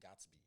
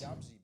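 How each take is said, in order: First: The whole word is said, with a clear t. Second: The middle is reduced, with no clear t sound. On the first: "but you're saying Gatsby" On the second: "It's Gabsy"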